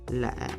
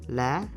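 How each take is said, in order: First: The pitch drops low and short. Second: The pitch is raised on the syllable. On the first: "the lowest tone given a low dropping pitch ... a short bass effect" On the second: "Now is acute. ... Raise your voice a little bit"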